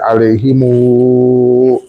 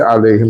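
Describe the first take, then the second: First: The word ends with an added u vowel. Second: The word ends on a closed m sound. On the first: This reading is used in that tradition. The speaker calls it right. "you say alayhimu in Welsh" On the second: This reading is not used in that tradition. The speaker calls it wrong. "you don't say alayhim"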